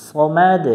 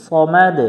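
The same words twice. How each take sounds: The two takes are said the same way.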